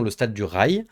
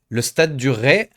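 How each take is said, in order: First: The last word ends with a 'y' glide. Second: The last word ends in a plain vowel.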